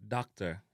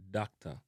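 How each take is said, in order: First: DOCTOR with a sounded final R, "dok-ter"; English-style "dok-ter"; English pronunciation. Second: DOCTOR as "dak-ta", no R; Jamaican pronunciation. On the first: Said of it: "in a English". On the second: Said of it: "in a Jamaican". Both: Shown as a demonstration.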